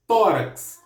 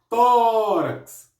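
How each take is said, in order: First: Said in the usual way. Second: Tórax said higher and louder, tó punched; stress on tó. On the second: Shown as a demonstration. Teacher stresses the accented syllable for students, emphatic. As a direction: hit tó in Tórax clearly. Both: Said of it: "Por que que é acentuado no tó?".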